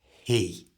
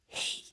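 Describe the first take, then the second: First: Full voice comes in on the vowel. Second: The whole word is whispered. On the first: "bring in your full voice like this" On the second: "the word with a whisper"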